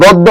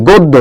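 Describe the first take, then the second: First: গদ্য with an open "aw" first vowel, "gawddo"; wrong pronunciation demo. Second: গদ্য with a closed "o" first vowel, "goddo"; correct pronunciation demo. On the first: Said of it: "এগুলো কিন্তু গদ্য না". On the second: Teacher correcting students, গদ্য with a closed "o". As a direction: say গদ্য as "god-do", rounded o. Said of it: "এটা হচ্ছে কি?". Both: Shown as a demonstration.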